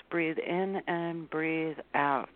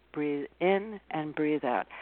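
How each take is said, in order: First: Slow, soft, calming breath cue; soothing instruction to breathe. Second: Slow, steady, calm breath cue; gentle reminder to breathe. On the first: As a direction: guide a calm breath in and out slowly. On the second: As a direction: talk someone into breathing. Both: Shown as a demonstration.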